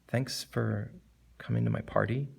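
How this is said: It is said in a regretful tone. "as opposed to regretful"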